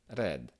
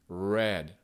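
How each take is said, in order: First: The R is a rolled, trilled sound. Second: The R is a smooth American R, untrilled. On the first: "le mot rouge en anglais avec un accent euh, italien" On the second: "le R américain... avec la pointe de la langue"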